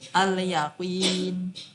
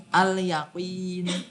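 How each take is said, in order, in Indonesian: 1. Bunyi l terdengar jelas. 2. Bunyi l terdengar jelas.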